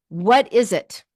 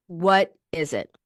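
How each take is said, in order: First: Said in the usual way. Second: Slower "What is it?" dropped lower; slow, lower searching repeat. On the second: Shown as a demonstration. Coach repeating the question to make it sink in, slow and low. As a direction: press the question home slowly.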